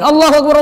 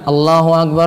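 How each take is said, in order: First: It is said quickly and briskly. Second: It is said slowly and drawn out. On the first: Listeners wrongly think the prayer is about to start. The speaker calls it wrong. "Azan jangan buat cepat-cepat" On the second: This is the call to prayer, so there is still time to prepare. The speaker calls it right. "Lihat azan itu pelan ya"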